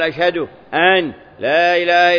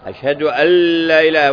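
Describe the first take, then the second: First: The n is pronounced clearly before the l. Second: The n merges into a doubled l sound. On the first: The speaker calls it wrong. "فإذا أظهرها" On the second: The speaker calls it right. "وين النون مدغمة في اللام"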